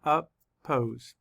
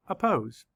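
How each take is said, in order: First: "Oppose" broken into two syllables, up-pose. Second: Said in the usual way. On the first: Shown as a demonstration. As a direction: say "Oppose" with a gap between syllables. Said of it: "Let's count the syllables". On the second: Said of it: "say the word again".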